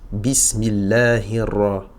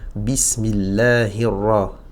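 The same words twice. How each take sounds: First: The r is overdone and drawn out. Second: The r is short and controlled. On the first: The speaker calls it wrong. "ça fait trop de ra" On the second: The speaker calls it right. "j'essaye de faire"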